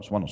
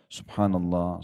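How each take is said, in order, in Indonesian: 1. Kata itu diucapkan cepat dan tidak jelas. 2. Kata itu diucapkan pelan dan jelas. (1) "Karena buru-buru"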